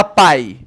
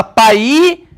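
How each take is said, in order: First: Said in the usual way. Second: "pai" as pa-Í, two syllables, rising on a loud long I; "pai" misstressed as pa-Í, pitch climbing at the end; stress on the I of "pai". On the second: Shown as a demonstration. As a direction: stretch "pai" into pa-Í, punching the final I. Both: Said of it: "na pronúncia, mais forte".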